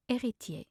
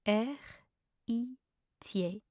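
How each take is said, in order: First: Said in the usual way. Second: Very slow, gaps between syllables. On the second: Shown as a demonstration. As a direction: teach it one syllable at a time. Pronunciation guide, broken-down take.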